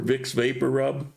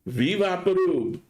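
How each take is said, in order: First: The name is pronounced with English sounds. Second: The name is pronounced with Spanish sounds. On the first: Locals will not understand what is meant. The speaker calls it wrong. "if you ask for Vicks Vapor Rub, nobody's going to know" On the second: Everybody understands what is meant. The speaker calls it right. "they call it here Vivaporub"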